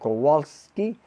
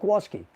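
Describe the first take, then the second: First: The name is said with the L sound. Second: The name is said fast without the L sound. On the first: "instead of saying Kowalski" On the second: "we call it Kowalski. So if you say it fast"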